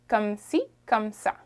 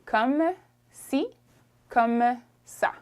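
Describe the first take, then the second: First: The phrase is said quickly and run together. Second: The phrase is said slowly and carefully. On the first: This is the everyday way of saying it. "Usually we'd say it a little fast" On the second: This is the careful, proper way of saying it. "if you said it properly"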